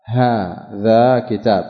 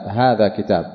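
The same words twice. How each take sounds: First: Drawn out, each syllable of هذا كتاب stretched; slow demonstration. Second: Said in the usual way. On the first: Shown as a demonstration. Teacher showing students the form, slow and drawn out. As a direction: spell out هذا كتاب slowly for the class. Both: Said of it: "فإذا أتيت بحرف التنبيه تقول".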